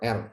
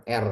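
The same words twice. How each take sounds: The two takes are said the same way.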